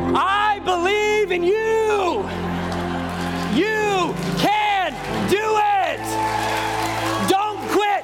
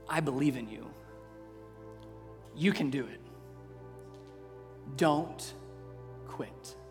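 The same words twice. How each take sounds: First: It is said louder and with more energy. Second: It is said more quietly.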